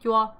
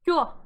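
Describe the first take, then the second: First: The syllable is said with a flat tone. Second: The syllable is said with its marked tone. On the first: It means air, not a number. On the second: It means the number nine.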